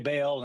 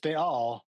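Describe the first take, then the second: First: The vowels run together without any catch. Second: A glottal catch separates the two vowels. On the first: This is the common everyday pronunciation. "People say Baal" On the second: This is closer to the original pronunciation. "because there is a little aleph in there"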